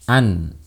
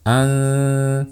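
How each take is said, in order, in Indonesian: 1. Bunyi n diucapkan penuh dan jelas. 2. Bunyi n disamarkan menjadi dengung sengau. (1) "Seperti ini suara nun yang jelas" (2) "Tapi seperti ini"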